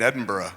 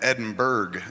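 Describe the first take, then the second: First: The ending sounds like 'burra', without a g. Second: The ending sounds like 'burg', with a hard g. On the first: This is how the locals say it. "you mean Edinburgh?" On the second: This is the reading from the spelling. "because it's got a G H"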